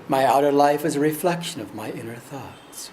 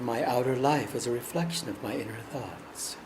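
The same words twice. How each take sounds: First: It is said at normal speaking volume. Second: It is said more softly than normal.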